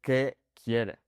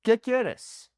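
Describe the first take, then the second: First: Restrained, polite workplace question; measured formal address at work; formal, to someone at work. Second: Higher, lively question to a friend; casual to a friend. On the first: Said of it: "speaking to someone at my work". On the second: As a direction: ask it informally, pitched up high. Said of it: "let's say I'm talking to my friend". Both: Shown as a demonstration.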